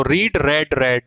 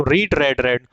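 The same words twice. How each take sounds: First: रीड said long like reed, रेड said short like red; read vs red contrast. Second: रीड with a long ee, then रेड twice with a short e, like red; teacher models रीड then रेड, रेड; read vs red contrast. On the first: Teacher repeats the verb forms for students, रीड, रेड, रेड spoken distinctly. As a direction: model रीड then रेड, रेड for the class. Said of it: "इसका जो pronunciation है वो रेड होता". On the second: Teacher drills the three forms for students, रीड, रेड, रेड clearly contrasted. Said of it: "first form को तो हमेशा रीड ही बोलना है". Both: Shown as a demonstration.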